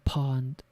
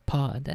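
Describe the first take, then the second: First: "pawned" said with an N, like pawning goods; misread word. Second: "pawed" said with no N, rhyming with clawed; corrected word. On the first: Narrator stumbles on the word, saying "pawned" with an N. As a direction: read "pawned" with a clear N sound. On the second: Narrator corrects himself, saying "pawed" without the N. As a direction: say "pawed" plainly, no N at the end. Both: Shown as a demonstration. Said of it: "pawed, not pawned".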